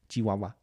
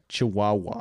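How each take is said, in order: First: It is said with a Spanish pronunciation. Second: It is said with an American pronunciation. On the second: "people from America would just be like"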